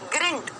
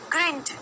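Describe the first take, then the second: The two takes are said the same way.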